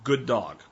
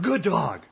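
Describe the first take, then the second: First: It is said in a calm, low-energy voice. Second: It is said in an excited, high-energy voice. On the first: The praise keeps the dog settled. The speaker calls it right. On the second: The praise gets the dog worked up again. The speaker calls it wrong.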